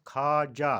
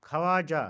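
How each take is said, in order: First: ख्वाजा said khaa-ja; ख्वाजा in two syllables; correct pronunciation. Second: ख्वाजा said kha-waa-ja, louder; ख्वाजा in three syllables; mispronunciation. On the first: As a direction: say ख्वाजा with silent w. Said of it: "और सही तलफ़ुज़". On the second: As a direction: say ख्वाजा with audible w. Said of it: "ख्वाजा गलत तलफ़ुज़". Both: Shown as a demonstration.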